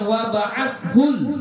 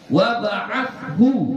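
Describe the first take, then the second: First: The word ends with an added l sound. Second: The word ends on a vowel, without l. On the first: The speaker calls it wrong. "bukan wa ba'athul" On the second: The speaker calls it right. "bukan wa ba'athu"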